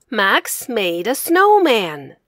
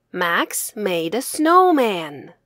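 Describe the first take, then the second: No difference in how they are said.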